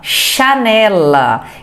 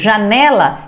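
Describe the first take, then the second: First: It starts with a voiceless SH sound. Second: It starts with a voiced ZH sound.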